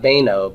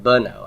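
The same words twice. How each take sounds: First: Beno as "bay-no", full ay vowel; long first vowel. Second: Beno as "buh-no", first vowel reduced. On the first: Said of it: "It's not beno". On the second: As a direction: shrink the start of beno to a quick "buh". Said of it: "I've got a vocal shiva here". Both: Shown as a demonstration.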